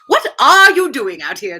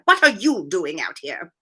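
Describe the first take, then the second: First: The R is emphasized, sounding more British. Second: It is read plainly without a marked R.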